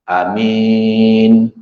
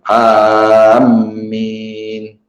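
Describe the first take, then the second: First: The first vowel is long and the m single. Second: The first vowel is long and the m doubled. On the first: "Tadi panjang a ni amin" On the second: "dipanjangkan alif, mimnya itu bertasydid"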